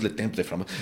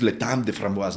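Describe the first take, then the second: First: TEMPS read as spelled, "temp" with an E; mispronounced "temps", letter by letter; wrong French pronunciation. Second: TEMPS with an open nasal vowel, no p heard; French "temps", rhyming with "tant"; correct French pronunciation. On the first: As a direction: say "temps" the Spanish way, sounding m and p. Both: Shown as a demonstration. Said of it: "no es le temps de framboise".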